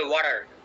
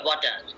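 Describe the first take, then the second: First: It is said in an American accent. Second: It is said in a British accent.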